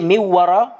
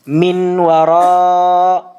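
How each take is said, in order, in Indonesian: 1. Bunyi n menyatu ke dalam w yang mengikutinya. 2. Bunyi n diucapkan dengan jelas sebelum w.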